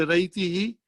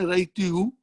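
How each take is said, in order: First: The final syllable ends with an 'ee' vowel. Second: The final syllable ends with an 'oo' vowel. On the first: The speaker calls it right. "When you say Raiti he, it becomes easy" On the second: The speaker calls it wrong. "Try to say Raiti who, it's difficult"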